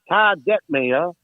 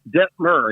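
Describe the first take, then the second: First: The last syllable does not rhyme with fur. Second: The last syllable rhymes with fur. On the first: The speaker calls it wrong. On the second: The speaker calls it right.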